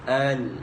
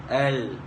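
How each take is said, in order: First: The vowel is said with the jaw wide open. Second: The same.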